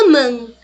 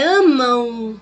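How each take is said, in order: First: The final m is closed like a consonant. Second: The final m sounds like a nasal u. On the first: The speaker calls it wrong. "Não é amam" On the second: The speaker calls it right. "Esse M aqui, ó, ele tem som de quê? De U"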